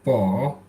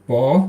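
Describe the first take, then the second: First: The syllable has a low dipping pitch. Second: The syllable has a rising pitch.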